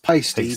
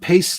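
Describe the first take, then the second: First: The name is said as two syllables. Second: The name is said as one syllable. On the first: This is how the name is really meant to be said. The speaker calls it right. "It's actually pronounced pasty" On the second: This is how most customers say it. The speaker calls it wrong. "everybody calls it paste"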